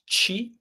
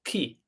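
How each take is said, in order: First: "chi" as a high chee; soft Italian c. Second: "ki" as kee, softly said; hard Italian ch. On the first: Teacher sounds out C plus I, "chi" as high soft chee. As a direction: say "chi" with a ch as in cheese, pitched up. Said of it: "So C plus I". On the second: Teacher sounds out C plus H plus I, "ki" as hard kee. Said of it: "C plus H plus I". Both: Shown as a demonstration.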